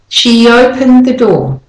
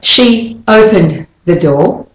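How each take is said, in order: First: The words flow together without a gap. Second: A big gap separates the words. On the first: The speaker calls it right. "it's much more flowing" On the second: The speaker calls it wrong. "with that big space in between"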